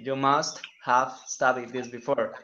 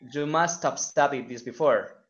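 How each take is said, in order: First: The h in 'have' is clearly pronounced. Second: The h in 'have' is dropped.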